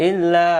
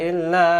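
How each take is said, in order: No difference in how they are said.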